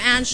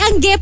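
First: The name ends without a hard 'geh' syllable. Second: The name ends with a hard 'geh' syllable. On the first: The speaker calls it wrong. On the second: The speaker calls it right.

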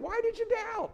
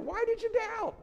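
First: It is said in a warm, laughing tone. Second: It is said in a warm, laughing tone.

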